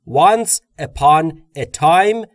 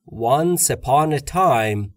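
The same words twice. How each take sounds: First: The words are said separately, one by one. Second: The words are linked together into each other. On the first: The speaker calls it wrong. "به جای اینکه بگم" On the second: The speaker calls it right. "میگم"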